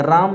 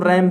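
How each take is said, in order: First: "राम" with a long "aa" vowel, the mistaken reading of ram; गलत उच्चारण. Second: "रैम" with an open "ai" vowel, as in English ram; सही उच्चारण. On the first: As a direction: say "राम" with a long open "aa", like the Hindi name. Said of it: "राम नहीं". ("राम" में लंबे "आ" वाला गलत उच्चारण) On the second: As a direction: say "रैम" with the English short-a vowel, not a long "aa". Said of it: "उसको हम रैम बोलते हैं". ("रैम" में "ऐ" की मात्रा वाला उच्चारण) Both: Shown as a demonstration.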